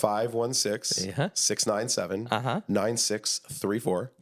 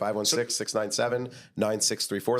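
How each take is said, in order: First: The number is said more slowly. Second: The number is said at normal speed.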